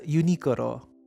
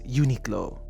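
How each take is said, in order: First: It is pronounced with Japanese sounds, like Unikoro. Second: It is pronounced with English sounds, like Uniqlo. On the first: "in Japanese, you're supposed to pronounce it as Unikoro" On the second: "the universally accepted way of saying it in the English-speaking world"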